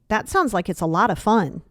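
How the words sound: The tone sounds pointed and passive-aggressive. The speaker is fishing for an invite. The speaker calls it wrong. "That's that's passive aggressive"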